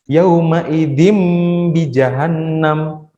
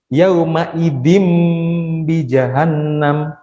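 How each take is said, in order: Both takes have the same delivery.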